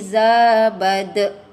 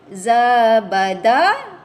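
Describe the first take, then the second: First: The word ends on a bounced final consonant. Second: The word ends on an open final vowel. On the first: The reader stops at this word. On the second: The reading continues without stopping.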